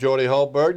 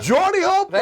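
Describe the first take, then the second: First: The name is said flatly, without enthusiasm. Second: The name is said with lively enthusiasm. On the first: The speaker calls it wrong. "you always say that with much more enthusiasm than you say me?" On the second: The speaker calls it right. "Hey, that's better"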